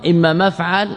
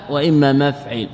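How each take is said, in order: First: مفعل said maf'al, with a after the ayn; fatha on the ayn. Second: مفعل said maf'il, with i after the ayn; kasra on the ayn. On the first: Teacher contrasting the only two patterns, fatha demonstration. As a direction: open the second vowel of مفعل to a, maf'al. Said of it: "وفتح العين". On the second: Teacher contrasting the only two patterns, kasra demonstration. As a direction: turn the second vowel of مفعل to i, maf'il. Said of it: "بكسر العين". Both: Shown as a demonstration.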